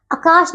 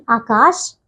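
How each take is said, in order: First: आकाश with a short first "a"; mispronunciation. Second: आकाश with a long first "aa", pitched low; correct pronunciation. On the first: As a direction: clip the start of आकाश: akaash. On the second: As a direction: hold the start of आकाश. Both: Shown as a demonstration. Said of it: "आकाश नहीं".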